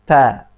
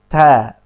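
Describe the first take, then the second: First: The t is said with moderate breath. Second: The t is said with moderate breath.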